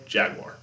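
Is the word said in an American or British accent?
American. It is said in an American accent. "But here in America, jaguar"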